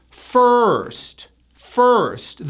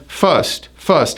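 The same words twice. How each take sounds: First: First with a long, tight R; first, slow with full R. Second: First said as "fust"; first with a short, slack vowel; unclear R. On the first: Shown as a demonstration. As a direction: stretch the ER in first. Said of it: "So now it's". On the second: Retold or imitated. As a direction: drop the R from first. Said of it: "most of my clients would pronounce this as".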